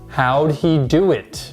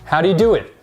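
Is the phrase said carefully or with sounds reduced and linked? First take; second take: carefully; reduced. First: Each word is pronounced separately and fully. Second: The words are reduced and run together. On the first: The speaker calls it wrong. "Many English learners will say this" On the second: The speaker calls it right. "native speakers actually say this"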